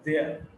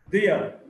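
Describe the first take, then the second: First: The two words are run together, contracted. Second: Both words are said in full.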